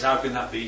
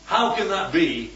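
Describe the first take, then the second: First: Lower, open wondering question; trusting but asking how; Mary asking the angel how, believing and wondering. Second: Skeptical question meaning no; doubting it can happen at all; doubtful. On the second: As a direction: Zachariah doubting the angel, skeptical. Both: Shown as a demonstration. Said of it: "but they say them differently".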